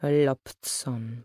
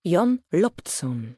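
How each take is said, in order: First: Loptson said slowly, savouring each sound; tasting the word. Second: Put-on the boy says his name slowly and deliberately; lightly voiced shy boy, drawn out; boy's reply. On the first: A narrator's reading. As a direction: roll Loptson slowly, as if trying it out. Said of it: "smakując słowo". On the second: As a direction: Jon Loptson said slowly, each syllable separate.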